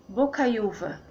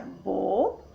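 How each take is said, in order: First: Said in the usual way. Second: "bo-cai-u-va" in four separate beats; syllable by syllable. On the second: Shown as a demonstration. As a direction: pause between bo, cai, u and va. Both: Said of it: "que fica".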